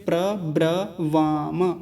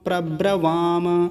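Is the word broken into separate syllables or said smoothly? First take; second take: separate syllables; smooth. First: The syllables are separated by pauses. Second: The syllables run together without pauses. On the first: "एक तो प्र है, एक ब्र है, एक वाम" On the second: "सभी को मिलाएंगे"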